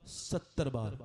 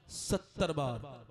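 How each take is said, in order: First: Said in the usual way. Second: सत्तर बार drawn out slowly with weight on सत्तर; slow stressed answer. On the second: Shown as a demonstration. Preacher making the crowd repeat सत्तर बार, slow and stressed. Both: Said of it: "बोलो, कितने बार?".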